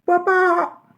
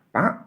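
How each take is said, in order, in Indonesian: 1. Namanya dipanggil dengan sangat keras. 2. Namanya dipanggil dengan pelan. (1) "bisa jadi keras sekali" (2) "Bisa jadi pelan"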